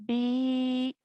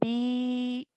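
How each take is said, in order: First: The vowel is long, held two counts. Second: The same.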